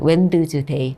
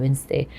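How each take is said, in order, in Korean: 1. d 소리는 중간에서 발음돼요. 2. d 소리는 중간에서 묵음이에요. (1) "스펠링도 다 쓰는 대로 외웠어요" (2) "D 발음 안 되잖아요"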